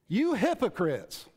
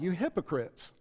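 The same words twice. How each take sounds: First: It is said forcefully, like an exclamation. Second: It is said gently and mildly.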